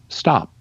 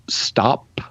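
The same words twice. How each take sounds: First: The final p has no puff of air. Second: The final p is released with a puff. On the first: "you would just say stop" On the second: "instead of saying uh"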